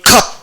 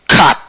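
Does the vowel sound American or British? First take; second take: British; American. First: The vowel is darker, nearer 'uh'. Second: The vowel is brighter, nearer 'ah'. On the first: "이렇게 발음하면 영국식에 가까운 거고" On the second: "미국식에 가깝다"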